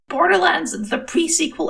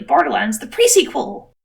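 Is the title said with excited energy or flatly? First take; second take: flat; excited. First: It is said flatly, without extra energy. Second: It is said loudly, with excited energy. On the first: The speaker calls it wrong. "I guess that means I'm saying it wrong" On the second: The speaker calls it right. "It's actually"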